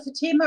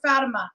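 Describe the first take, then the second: First: "Fatima" as fuh-TEE-muh; first pronunciation, stress on middle syllable. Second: "Fatima" as FAT-uh-muh; second pronunciation, stress on first syllable. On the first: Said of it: "say people's name as properly as possible". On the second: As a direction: hit the FAT at the start of "Fatima". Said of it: "could be pronounced either way". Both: Shown as a demonstration.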